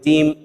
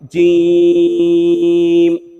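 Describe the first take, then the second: First: The word is cut off with a sudden jerk. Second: The word fades out gently at a normal length. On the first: The speaker calls it wrong. "झटका भी दे के नहीं हम इसको खत्म करेंगे। जीम इस तरह भी नहीं पढ़ेंगे" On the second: The speaker calls it right. "Normal तरीके के मुताबिक जीम इस तरह पढ़ेंगे"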